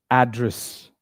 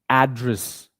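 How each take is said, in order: Both takes have the same delivery.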